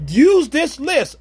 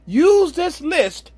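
First: Slow, raised, each word pressed; slow emphatic exhortation. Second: Slower, higher still, pressing "Use"; slow emphatic exhortation. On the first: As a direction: lay down the rule, slowly. Preacher exhorting young men. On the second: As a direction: repeat it harder, slowly. Repeats exhortation. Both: Real, not acted.

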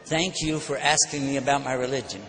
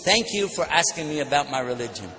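First: Disarm him with calm courtesy; calm, polite reply. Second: Calm reply modelled. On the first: Retold or imitated. Preacher answering the insulting man with calm kindness. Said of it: "But this time, I said". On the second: Shown as a demonstration. Preacher teaching the crowd the gentle reply. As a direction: show the audience the calm answer. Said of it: "I know we shouldn't do that".

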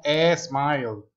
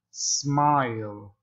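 First: "smile" with a stretched Spanish e before it, "es-mile"; wrong pronunciation. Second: "Smile" said starting straight on the s; correct pronunciation. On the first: English teacher shows students the mistake, wrong pronunciation. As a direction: put a drawn-out "eh" in front of "smile". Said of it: "no es smile". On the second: English teacher models smile for students, correct pronunciation. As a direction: model "Smile" with no vowel before the S. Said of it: "que lo diga bien". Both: Shown as a demonstration.

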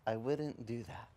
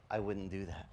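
First: Softer, slow, calm warning; slow quiet voice. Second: Soft, low, gentle warning; calm quiet voice. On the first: Preacher voicing the Lord, slow and soft. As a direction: let it land slowly and gently. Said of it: "the Lord goes". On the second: Preacher voicing the Holy Spirit, soft and low. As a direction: say it softly like a still small voice. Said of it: "the Holy Spirit said". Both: Retold or imitated.

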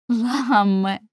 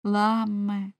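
First: Calls his name out loud, imploring; pleading call. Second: Tender call. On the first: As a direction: cry out his name, begging. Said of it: "казала вона". (благальний вигук) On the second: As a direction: say his name to soothe him. Вона обняла його. (ніжно, лагідно) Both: Acted.

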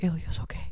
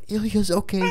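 First: Soft, hushed "Ilya's okay" said under the breath; retold whisper. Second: "Ilya's okay" said out at normal level, higher pitched; repeated, clearer. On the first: Retelling whispering to the stewardess, hushed and soft. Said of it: "I'm whispering to her". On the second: Retold or imitated. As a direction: repeat "Ilya's okay" audibly after being asked what. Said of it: "I go".

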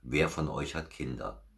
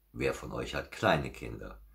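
First: Said in the usual way. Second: "kleine" lifted in pitch and volume; stress on KLEINE. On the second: Real, not acted. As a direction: narrow the question by punching "kleine". Host narrows question to small children.

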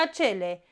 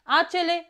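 First: "acele" stressed in the middle, a-CE-le; stress on middle syllable. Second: "Acele" stressed at the start, A-ce-le, higher; stress on first syllable. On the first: Teacher contrasting homographs, "acele" stressed on CE. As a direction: put the weight on CE in "acele". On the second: Teacher contrasting homographs, "Acele" stressed on A. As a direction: hit the A of "Acele". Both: Shown as a demonstration. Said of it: "dar se citesc diferit".

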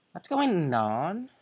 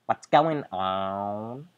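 First: Put-on higher, airy Valley Girl question. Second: Said in the usual way. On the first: Shown as a demonstration. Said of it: "the typical Valley Girl voice". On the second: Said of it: "I'm gonna give it that voice".

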